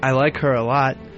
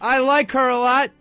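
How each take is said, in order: First: It is said in a nice, warm tone. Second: It is said in an angry tone. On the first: The speaker calls it right. "Why don't you say it a nice way?" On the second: The speaker calls it wrong. "What, are you angry now?"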